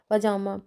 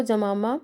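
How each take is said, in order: First: Said in the usual way. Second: जमामा said for पजामा, with the first sound swapped to ja; जमामा, an echoed ja-ma-ma; wrong pronunciation. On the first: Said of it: "इस शब्द का सही ज्ञान न होने से". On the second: Shown as a demonstration. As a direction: say जमामा as a child mishears पजामा. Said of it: "इसको जमामा बोला जाता है".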